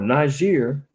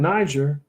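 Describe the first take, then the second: First: Niger is said the way locals say it. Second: Niger is said the everyday English way.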